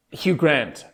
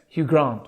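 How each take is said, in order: First: Said in the usual way. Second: Soft British-accented GRANT. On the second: Shown as a demonstration. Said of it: "when I start doing a British accent".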